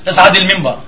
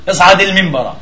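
Both takes have the same delivery.

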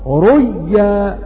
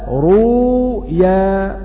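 First: The sound is merged into a doubled y. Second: A long u vowel is followed by a single y. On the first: "والإضغام ريا بعد انقلاب الواو ياء وإضغام الياء في الياء" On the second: "الإظهار بعد الإبدال"

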